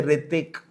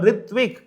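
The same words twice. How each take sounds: First: "Ritik", Ritvik with the V dropped; Bengali V-less pronunciation. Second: Said in the usual way. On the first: Shown as a demonstration. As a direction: drop the V, saying "Ritik". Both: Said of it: "they don't use the V properly".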